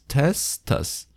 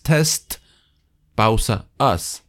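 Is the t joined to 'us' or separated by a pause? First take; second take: joined; separated. First: The t runs straight into us. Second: There is a pause between test and us. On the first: The speaker calls it right. "Sino es test us" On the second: The speaker calls it wrong. "No es test, pausa, us"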